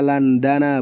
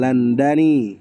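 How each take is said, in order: First: The word ends with an 'a' vowel. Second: The word ends with an 'i' vowel. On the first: The speaker calls it right. "bacanya Landana" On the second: The speaker calls it wrong. "bukan Landani"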